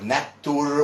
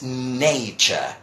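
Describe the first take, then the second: First: The middle consonant is a plain t sound. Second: The middle consonant is a ch sound. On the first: The speaker calls it wrong. "people might say nature or natur" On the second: The speaker calls it right. "with a ch sound"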